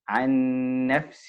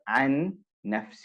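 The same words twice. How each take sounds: First: The two n sounds merge into one doubled n. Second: The two n sounds are pronounced separately. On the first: The speaker calls it right. "it will be joined if you're continuing" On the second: The speaker calls it wrong. "So you don't separate them ... So it's not"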